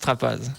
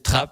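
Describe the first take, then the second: First: The name ends with a pronounced 'az' sound. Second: The name ends with no final vowel sound. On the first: This is how many other people say it. "beaucoup de gens disent Trapaz" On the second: This is how the family said it locally. "chez nous on disait Trappe"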